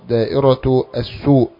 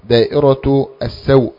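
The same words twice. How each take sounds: First: The s is followed by a u vowel. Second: The s is followed by an a vowel. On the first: "بالضم" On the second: "بفتح السين"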